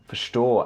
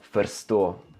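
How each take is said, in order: First: The r and s merge into one sh-like sound. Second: The r and s are pronounced as separate sounds. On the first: The speaker calls it right. "det är lättare att säga förstå" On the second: The speaker calls it wrong. "än att säga förstå"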